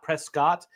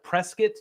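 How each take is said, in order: First: The name is pronounced literally, part by part. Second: The name is pronounced the local way. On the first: The speaker calls it wrong. "not Prescott" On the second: The speaker calls it right. "Like we have Prescott"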